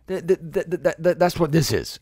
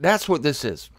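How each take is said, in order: First: Real excitement, tripping repeatedly on the first word; excited stutter. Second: Said in the usual way. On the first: Real, not acted. Preacher carried away by his point, excited stammering. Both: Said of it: "sorry, I'm getting excited".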